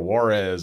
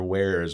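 First: It is said like the city 'Juarez'. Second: It is said like the word 'where's'. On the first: The speaker calls it wrong. "or Juarez, it's like, it's not in Mexico" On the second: The speaker calls it right. "These are Where's with a Z"

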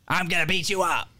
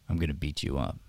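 First: It is said angrily and loudly. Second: It is said coolly, calmly and relaxed.

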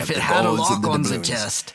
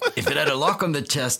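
First: It is said in the speaker's ordinary accent. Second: It is said in a put-on French accent.

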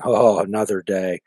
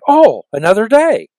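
First: The words sound weary and gloomy. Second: The words sound cheerful and upbeat. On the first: The speaker dreads the day ahead. The speaker calls it wrong. "It's the same words, but it's a different perspective and a different inflection" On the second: The speaker looks forward to the day ahead. The speaker calls it right. "It's the same words, but it's a different perspective and a different inflection"

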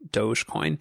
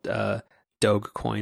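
First: Doge is said not rhyming with vogue. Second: Doge is said to rhyme with vogue. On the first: This is the other person's pronunciation. "or in your language Dogecoin" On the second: This is the speaker's own habitual pronunciation. "I always thought it was like Doge, like Vogue"

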